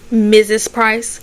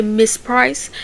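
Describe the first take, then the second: First: Slow correction, leaning on Missus; stress on Missus. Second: Said in the usual way. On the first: Retold or imitated. Divorced woman correcting the police on her title, Missus stressed slowly. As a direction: draw out both syllables of Missus. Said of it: "trying to hold on to the Missus". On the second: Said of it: "They say".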